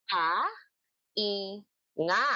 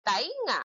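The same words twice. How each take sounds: First: "Ta-i-nga" split into three beats; three spaced syllables; clapped syllables. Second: Said in the usual way. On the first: Shown as a demonstration. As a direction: clap out each syllable. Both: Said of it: "Ipalakpak nyo nga".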